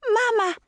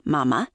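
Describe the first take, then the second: First: Put-on very high baby voice; little girl's voice. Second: Said in the usual way. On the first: A narrator's reading. Toddler reaching out towards her mother, high baby voice. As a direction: say it as a toddler, pitched way up. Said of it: "the little girl said".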